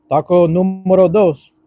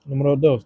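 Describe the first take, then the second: First: Slow, loud, higher hype call; announcer voice. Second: Said in the usual way. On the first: Shown as a demonstration. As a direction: announce it like a game show. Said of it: "Numero dos, taco".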